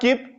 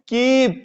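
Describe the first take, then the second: First: The vowel is said short and clipped. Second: The vowel is said long and drawn out. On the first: The speaker calls it wrong. "Not कीप" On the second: The speaker calls it right. "बड़ी ई"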